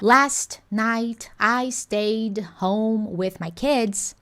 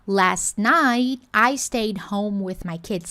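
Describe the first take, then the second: First: The t and d sounds are fully released. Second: The t and d sounds are held, not released.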